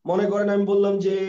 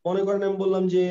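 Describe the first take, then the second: No difference in how they are said.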